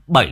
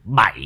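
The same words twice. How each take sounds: First: The vowel is the short, closed 'ây' sound. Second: The vowel is the open 'ay' sound. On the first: The speaker calls it wrong. "7 là sai" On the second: The speaker calls it right. "7 mới là đúng. Đúng thật, viết là 7 bờ ai bay hỏi 7 mà"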